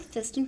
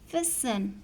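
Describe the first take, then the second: First: The t sound is pronounced in the middle. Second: The t sound is silent in the middle. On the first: The speaker calls it wrong. "अक्सर लोग जो हैं या बच्चे जो हैं उसको फेस्टन पढ़ देते हैं" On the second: The speaker calls it right. "इसमें टी साइलेंट है, so we will pronounce it as फेसन"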